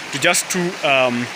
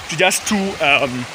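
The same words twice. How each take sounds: The two takes are said the same way.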